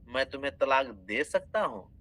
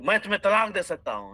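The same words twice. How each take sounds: First: It is said with a questioning tune. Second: It is said as a flat statement. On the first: It asks whether a divorce could be given. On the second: It declares that a divorce can be given.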